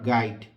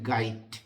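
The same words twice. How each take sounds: First: The word ends with a 'd' sound. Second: The word ends with a 't' sound. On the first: The speaker calls it wrong. "এখনো গাইড উচ্চারণ করেন, but this is not গাইড" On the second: The speaker calls it right. "লাস্টে ট"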